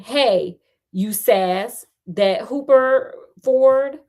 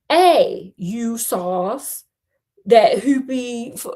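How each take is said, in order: First: It is said in the speaker's usual accent. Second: It is said in a British accent.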